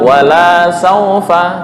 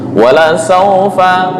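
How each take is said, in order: First: The vowel in 'la' is long. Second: The vowel in 'la' is short. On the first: Your Lord will not give. The speaker calls it wrong. "Tuhanmu tidak akan memberikan" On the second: And surely your Lord will give. The speaker calls it right. "dan sungguh Tuhanmu akan memberikan"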